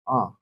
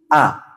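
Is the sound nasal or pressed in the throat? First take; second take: nasal; throat. First: The sound goes through the nose. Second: The sound is pressed in the throat. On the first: The speaker calls it wrong. "bukan masuk ke hidung" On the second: The speaker calls it right. "tapi a. Seperti hamzah"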